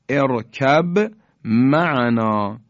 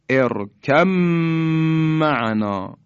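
First: A b sound is heard before the m. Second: The b merges fully into the m. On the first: "ارکب یعنی با ساکنه به حرف میم رسیده" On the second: "حرف با در میم ادغام شد، یعنی ما دیگه حرف با رو تلفظ نمی کنیم"

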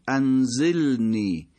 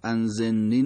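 First: The l and n sounds stay distinct. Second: The l and n sounds run together. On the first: The speaker calls it right. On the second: The speaker calls it wrong.

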